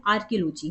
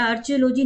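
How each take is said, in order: First: आर्कियोलॉजी said as "arkiolojee" with a hard k; the right way: आर्कियोलॉजी, ar-ki-o-lo-jee; correct pronunciation. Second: आर्कियोलॉजी said as "archeolojee" with a ch sound; wrong pronunciation. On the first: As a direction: say आर्कियोलॉजी with a clear k sound. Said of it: "आर्कियोलॉजी नहीं है ये". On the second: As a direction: mispronounce आर्कियोलॉजी with "ch" instead of "k". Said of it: "कुछ बच्चे ना इसको आर्कियोलॉजी पढ़ते हैं". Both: Shown as a demonstration.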